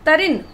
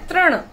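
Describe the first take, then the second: First: An extra vowel splits the opening into 'ta-rin'. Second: The opening is said as one 'tri' cluster. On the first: The speaker calls it wrong. "तरिन नहीं होता" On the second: The speaker calls it right. "तो सही pronunciation है तृण"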